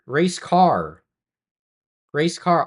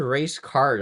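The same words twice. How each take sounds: First: "Race car" with no d at the end, ending on the r; "car" said clearly without a final d sound; saying race car. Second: "race card" with a clear d at the end; "card" ending in a crisp d sound; saying race card. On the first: Shown as a demonstration. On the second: Retold or imitated. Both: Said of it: "I heard race card".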